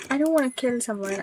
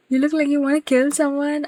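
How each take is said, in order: First: Fast, defensive denial of wanna; quick denial. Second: Louder, higher teasing jab; teasing accusation. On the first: Real, not acted. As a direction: rush to deny it, brushing it off. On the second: Retold or imitated. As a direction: toss the accusation out playfully.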